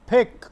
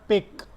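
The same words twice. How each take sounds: First: "pick" with a strong puff on the p; aspirated p. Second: "pick" with no puff of air on the p; unaspirated p. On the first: Teacher modelling the right "pick" for students, p aspirated. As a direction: punch out "pick" high and loud, p aspirated. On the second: Teacher showing students the wrong "pick", p unaspirated. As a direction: hold back the breath on the p of "pick". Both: Shown as a demonstration. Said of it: "not pick".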